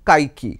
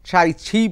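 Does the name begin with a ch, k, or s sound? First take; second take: k sound; ch sound. First: The name begins with a k sound. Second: The name begins with a ch sound. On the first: Some other people say it this way. "আবার অনেকে বলছেন কাইকি" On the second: This is the original Mandarin pronunciation. "যেটা মূল Mandarin Chinese উচ্চারণ"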